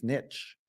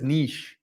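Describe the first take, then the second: First: "niche" said as "nitch"; joke pronunciation. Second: "Niche" said as "neesh"; mispronounced word. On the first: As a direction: say "niche" rhyming with itch, softly. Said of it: "That's how the French pronounce it". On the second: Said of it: "It's not really pronounced niche". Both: Shown as a demonstration.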